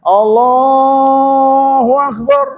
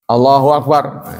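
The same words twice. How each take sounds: First: It is said loudly, in a raised voice. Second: It is said softly, in a quiet voice.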